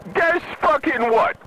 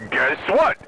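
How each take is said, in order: First: Fucking thrown up much higher in pitch, Guess fucking what? as a jab; emphatic repeat. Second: Said in the usual way. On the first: Shown as a demonstration. Ranting about Trump supporters, pitch leaps on fucking. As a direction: spike the pitch on fucking, leaning in.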